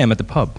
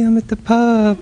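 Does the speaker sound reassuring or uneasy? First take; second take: uneasy; reassuring. First: The voice sounds flat and uneasy. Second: The voice sounds warm and reassuring. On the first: Being at the pub might seem like a bad thing. The speaker calls it wrong. "I don't say" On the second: Being at the pub is not a bad thing. The speaker calls it right. "It's a very deliberate decision to alter my tone"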